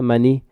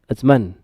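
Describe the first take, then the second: First: The word ends with an added i vowel. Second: The word ends on the n with no vowel. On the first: The speaker calls it wrong. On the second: The speaker calls it right.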